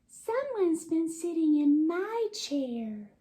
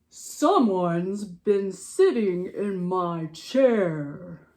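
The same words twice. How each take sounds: First: It is said in Mama Bear's voice. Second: It is said in Papa Bear's voice.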